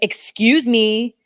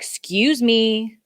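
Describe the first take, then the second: First: It is said sharply and with annoyance. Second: It is said lightly and casually. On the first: A pointed, confrontational demand. "It'd be like" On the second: A mild, polite request to move. "that's how it wouldn't be"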